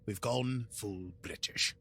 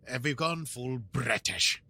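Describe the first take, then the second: First: Slow, softer mock British; full British accent. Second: Slow hammed-up British accent; mock British, retried. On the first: Host showing off a mock British accent. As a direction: lay on the British, slowly. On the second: Host retrying the British accent, maybe Scottish. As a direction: try the British line again, slowly. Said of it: "Is that still British if I do that?".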